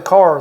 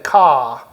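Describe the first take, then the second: First: The final r is pronounced, in a general accent. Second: The r is dropped, in a Boston accent.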